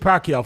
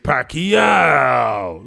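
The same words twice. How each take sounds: First: The name is said in a plain, ordinary way. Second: The name is said imitating a rapper's pronunciation. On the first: "Whenever I say Pacquiao" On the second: "like Bruiser"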